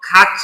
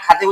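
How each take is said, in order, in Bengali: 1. মাঝের ব্যঞ্জনটি 'ch' ধ্বনি। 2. মাঝের ব্যঞ্জনটি সাধারণ 't' ধ্বনি। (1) "খাচ্ছি বলবো" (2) "খাতি উচ্চারণ করব, তাহলে উচ্চারণটা আমার ভুল হবে"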